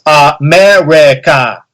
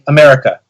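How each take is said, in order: First: The final vowel is fully and carefully enunciated. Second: The final vowel is a weak, reduced schwa. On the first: "you start like like enunciating it, like so" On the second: "a word with a schwa at the end"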